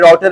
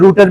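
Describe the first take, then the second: First: It is said the American way, 'rowter'. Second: It is said the British way, 'rooter'.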